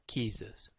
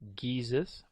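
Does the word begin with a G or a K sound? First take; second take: K; G. First: The word begins with a voiceless K sound. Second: The word begins with a voiced G sound. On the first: "The G or K sound" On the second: "The G or K sound"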